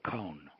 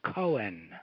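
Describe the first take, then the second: First: It is said as one syllable, rhyming with cone. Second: It is said as two separate syllables. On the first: This is how many people in the Bronx say it. "like a pine cone" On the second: This is how the news announcers say it. "like Cohen"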